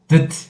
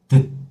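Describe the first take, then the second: First: The final T sound is fully released. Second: The final T sound is cut short and closed. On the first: The speaker calls it wrong. "it is not the" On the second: The speaker calls it right. "we have to cut and close"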